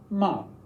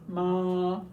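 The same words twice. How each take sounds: First: The pitch falls sharply from high to low. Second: The pitch stays high and level. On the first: "a falling tone" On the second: "a high tone"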